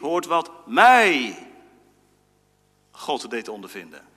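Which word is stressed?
mij. The stress falls on the word mij.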